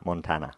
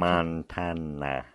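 First: It is said at normal speed. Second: It is said very slowly.

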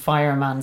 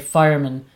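First: The last syllable has a full 'man' vowel. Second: The last syllable is reduced to 'mun'. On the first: "So I say Ploughman's Lunch and Fireman Sam" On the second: "English people say Fireman and Ploughman, like the mun"

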